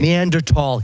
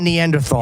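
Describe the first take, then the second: First: The last syllable is said with a hard 't'. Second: The last syllable is said with a 'th' sound. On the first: The speaker calls it wrong. "You sound dumb" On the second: The speaker calls it right. "We all say Neanderthal. There's an H in it"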